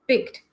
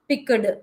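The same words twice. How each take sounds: First: The ending is a soft t sound. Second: The ending is a clear d sound. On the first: The speaker calls it right. "you make the sound as t rather than doing d" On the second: The speaker calls it wrong. "we will not read it uh, uh, like this"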